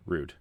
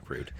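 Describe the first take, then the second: First: Said in the usual way. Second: "Rude" breathed out in a whispered laugh. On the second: Acted. Host repeats his own word to cohosts in a whispered laugh. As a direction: say "Rude" again under your breath, laughing.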